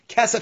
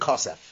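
First: The word is said in its ordinary contextual form. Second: The word is said in its pausal form. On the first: The word stands within the verse. "Kesef is when it's part of a pasuk" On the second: The word stands at a pause or verse end. "Kosef is when it's landing either at the end or in a pausal form"

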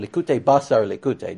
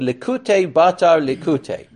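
First: The middle word is said with an s sound. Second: The middle word is said with a t sound. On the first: "I didn't want you to think it was about meat" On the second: "depending on how you pronounce your suffs or your tufts"

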